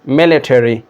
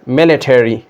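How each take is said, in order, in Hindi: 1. American उच्चारण, अंत पूरा 'terry' जैसा बोला गया। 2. अमेरिकन उच्चारण, अंत पूरा 'terry' जैसा बोला गया।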